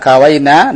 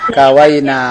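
First: The final vowel after the n is short. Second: The final vowel after the n is long. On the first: It refers to a group of women. "dengan nun yang pendek" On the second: It refers to the speaker and others.

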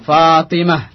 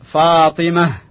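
First: The word ends with an h sound. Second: The same.

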